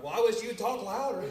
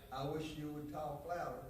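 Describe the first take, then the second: First: Higher and louder retort; pitched-up, louder mock complaint. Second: Louder voice. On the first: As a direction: raise it in exasperation. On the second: Retold or imitated. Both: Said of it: "in a louder voice".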